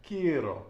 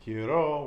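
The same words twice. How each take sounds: First: "quiero" stressed on "quie"; penultimate-syllable stress. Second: "quiero" wrongly stressed on the last syllable "ro"; wrong final stress. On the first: Teacher showing student the stress rule, penultimate stress on "quiero". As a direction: hit the first syllable of "quiero", let "ro" fall. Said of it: "The penultimate syllable". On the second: Teacher showing what not to say, final stress on "quiero". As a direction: lean hard on "ro" in "quiero". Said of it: "We're not saying quiero". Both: Shown as a demonstration.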